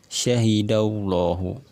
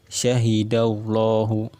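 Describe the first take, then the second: The two takes are said the same way.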